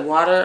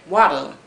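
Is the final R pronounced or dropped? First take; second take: pronounced; dropped. First: The word ends with a pronounced R sound. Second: The word ends in an 'ah' sound, no R.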